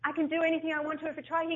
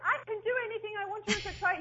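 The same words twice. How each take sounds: First: It is said at a louder volume. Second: It is said at the loudest volume.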